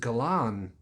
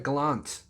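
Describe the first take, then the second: First: The word ends without a T sound. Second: The word ends with a T sound. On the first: The speaker calls it right. "There's no T on the end. It's a Galan" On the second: The speaker calls it wrong. "It's not a Galant"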